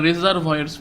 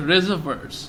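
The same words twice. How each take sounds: First: রিজার্ভয়ার্স with a full "voyers" ending; mistaken pronunciation. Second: রিজার্ভার্স with a short "vers" ending, no "voy" sound; correct pronunciation. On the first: Teacher warning students off a mistake, রিজার্ভয়ার্স said with "voyers". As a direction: sound out the unwanted "voy" in রিজার্ভয়ার্স. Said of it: "তোমরা রিজার্ভয়ার্স বলবে না". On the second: Teacher showing students how the word is pronounced, রিজার্ভার্স ending in "vers". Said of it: "এটার উচ্চারণটা হচ্ছে". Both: Shown as a demonstration.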